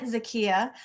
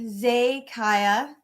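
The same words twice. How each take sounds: First: "Zakia" said as za-KEE-a; chosen pronunciation. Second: "Zakiya" said slowly as zay-KYE-a; alternative pronunciation. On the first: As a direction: say "Zakia" with an EE in the stressed middle. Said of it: "I'm pronouncing it Zakia". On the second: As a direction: say "Zakiya" with AY first, then EYE in the middle. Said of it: "but it could be Zakiya". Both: Shown as a demonstration.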